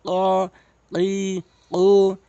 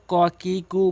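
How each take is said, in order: First: Back-of-palate q on each of "ক, কি, কু"; drawn-out, separate "ক, কি, কু" from the tongue root; correct qaf. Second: "ক, কি, কু" with an ordinary front k, short; light kaf k on "ক, কি, কু"; common mispronunciation. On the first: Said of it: "কফ জিহ্বার গোড়া উপরে তালু থেকে". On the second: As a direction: say "ক, কি, কু" briskly, not from the tongue root. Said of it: "অধিকাংশ লোক ক, কি, কু বলে". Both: Shown as a demonstration.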